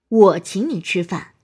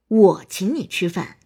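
First: The stress is on the word 我. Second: The same.

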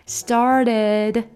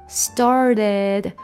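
Both takes have the same delivery.

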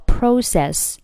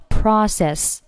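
First: The word is said in a British accent. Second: The word is said in an American accent. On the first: "这个单词的英式发音呢叫process" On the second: "美式呢叫process"

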